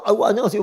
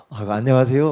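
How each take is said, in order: First: Overeager greeting. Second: Friendly hello with a smile in the voice; smiling greeting. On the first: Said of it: "상대방이 막 황당하게 한가 봐". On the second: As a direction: greet them warmly, smiling. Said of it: "하고 웃으면서". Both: Retold or imitated.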